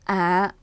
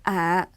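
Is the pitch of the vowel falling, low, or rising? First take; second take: low; low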